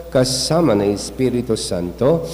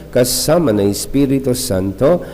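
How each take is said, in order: Both takes have the same delivery.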